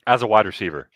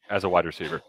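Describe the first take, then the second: First: As a wide receiver, pushed out louder; emphatic point. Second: Said in the usual way. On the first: Real, not acted. Closing his case on the recruit, said louder. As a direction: hammer home the point.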